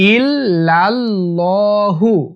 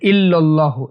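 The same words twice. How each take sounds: First: The double L sound is held long. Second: The double L sound is cut short. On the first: The speaker calls it right. "সঠিক উচ্চারণ হচ্ছে ইল্লাল" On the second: The speaker calls it wrong. "ইল্লাল্লাহু এরকম বলে, এটা ভুল।"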